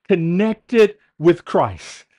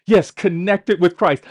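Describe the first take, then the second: First: Slow emphatic. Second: Said in the usual way. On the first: Shown as a demonstration.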